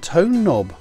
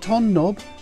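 First: The first vowel is long, as in 'own'. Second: The first vowel is short, as in 'on'. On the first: The speaker calls it right. "that's the tone knob" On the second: The speaker calls it wrong. "It's not the ton knob"

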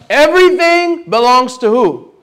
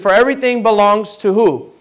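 First: It is said noticeably louder. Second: It is said at normal volume.

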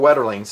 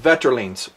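First: The name is pronounced the American way. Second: The name is pronounced the Swedish way.

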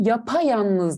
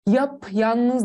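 First: An extra a vowel joins the two parts. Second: No vowel is heard between the two parts. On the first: The speaker calls it right. "Yapayalnız diyorum" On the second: The speaker calls it wrong. "yap yalnız demiyorum"

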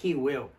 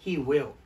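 No difference in how they are said.

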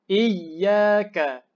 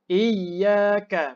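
The two takes are said the same way.

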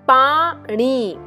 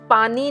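First: The middle n is a retroflex n. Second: The middle n is a dental n. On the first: The speaker calls it right. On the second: The speaker calls it wrong.

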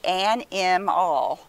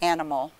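First: The middle vowel is a full short i. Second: The middle vowel is a weak schwa. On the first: "So it should say animal. Never heard of an animal" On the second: "So there's the I making the schwa sound"

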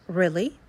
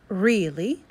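First: The first vowel is a short E sound. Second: The first vowel is a long E sound. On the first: "You can see now it has a short E" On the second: "This one is with a long E"

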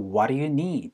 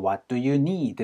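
First: The t and d merge into a soft flap. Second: The t and d are each clearly pronounced. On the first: "앞에 소리가 많이 지워지거든요" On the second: "라고 안 하고"

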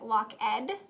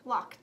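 First: The word ends with an extra 'ed' syllable. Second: The word ends with a 't' sound. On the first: The speaker calls it wrong. "Is it lock ed" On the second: The speaker calls it right. "You're right, it makes the t sound"

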